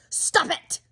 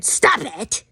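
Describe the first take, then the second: First: Mock scolding. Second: Flatly quoted command; a light imitation of a scolding stranger; quoted stop it. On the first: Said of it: "the first woman who said, "Stop it". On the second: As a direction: say the command as she said it. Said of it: "the first woman who said".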